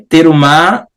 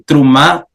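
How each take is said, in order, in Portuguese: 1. A vogal depois do primeiro t é pronunciada. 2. A vogal depois do primeiro t é muda. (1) "seria é, no, no hebraico bíblico antigo" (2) "trumá seria no hebraico moderno ... ele geralmente é mudo"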